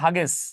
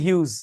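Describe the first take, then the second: First: The name is said as two syllables, 'hag-ess'. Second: The name is said as one syllable, 'hyooz'. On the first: This is how the spelling seems to read. The speaker calls it wrong. "বানান দেখলে মনে হবে হাগেস" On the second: This is the actual pronunciation. The speaker calls it right. "কিন্তু উচ্চারণ হচ্ছে হিউজ"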